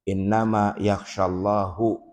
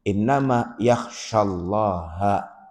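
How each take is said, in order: First: The word Allah ends with a 'u' vowel. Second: The word Allah ends with an 'a' vowel. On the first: God is the one who fears. The speaker calls it wrong. "Jadi misalkan bacanya salah" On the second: God is the one who is feared. The speaker calls it right. "Maka harakatnya fathah"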